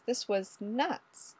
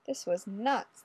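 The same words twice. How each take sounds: First: "This was nuts" drawn out slowly and softer; slow, dazed repeat. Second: Said in the usual way. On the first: A narrator's reading. Ray's repeated dazed thought.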